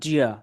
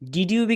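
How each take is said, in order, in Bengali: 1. শব্দ দুটো মিশে একটি 'didja' ধ্বনি হয়ে যায়। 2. দুটো শব্দই পুরোপুরি আলাদাভাবে বলা হয়। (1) "ডিড ইউ become Zia" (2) "ডিড ইউ become Zia"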